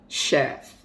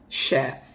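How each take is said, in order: The two takes are said the same way.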